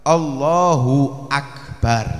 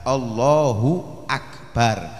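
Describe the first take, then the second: Both takes have the same delivery.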